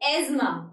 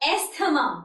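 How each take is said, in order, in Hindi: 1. बीच में सिर्फ 'z' की आवाज़ है। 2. बीच में 's' है, उसके बाद 'th'। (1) "इट इज एज्मा" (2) "लोग इसे प्रोनाउंस करते हैं एज एस्थमा, लेकिन this is the wrong pronunciation"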